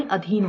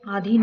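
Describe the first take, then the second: First: अधीन with short "a" first; correct pronunciation. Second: आधीन with long "aa" first; wrong pronunciation. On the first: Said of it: "अधीन होता है". (अधीन का पहला "अ" छोटा बोलें) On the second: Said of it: "आधीन नहीं". (आधीन का पहला "आ" लंबा बोलें) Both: Shown as a demonstration.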